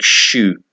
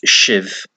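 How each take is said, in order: First: The word sounds like English 'shoe'. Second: The word does not sound like English 'shoe'. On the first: "one pronunciation was like shoe" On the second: "I've always known it to be pronounced shiv"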